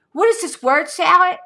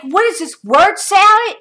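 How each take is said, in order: First: High, loud mocking repeat; incredulous scoff. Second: Loud, high, mocking disbelief; incredulous scoff. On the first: Repeating her scoff at his nonsense text, incredulous. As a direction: hammer the disbelief home. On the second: Scoffing loudly at the ex's nonsense message, incredulous. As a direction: scoff at his word salad. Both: Real, not acted.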